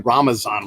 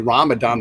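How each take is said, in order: First: The middle consonant is a Z sound. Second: The middle consonant is a D sound. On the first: This is the form used in Afghanistan. "with the Z sound in it" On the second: This is the form not used in Afghanistan. "they don't say Ramadan"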